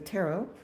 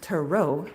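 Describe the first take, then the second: First: The stress is on the first syllable. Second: The stress is on the last syllable. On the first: "at least in the United States, we say tarot" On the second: "pronounced tarot with the accent on the end"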